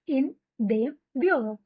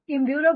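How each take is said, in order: First: The preposition and article are said as two words. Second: The preposition and article merge into one syllable.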